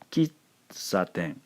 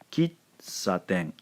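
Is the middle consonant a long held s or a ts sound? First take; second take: ts sound; ts sound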